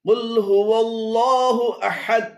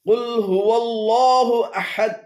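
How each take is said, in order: Both takes have the same delivery.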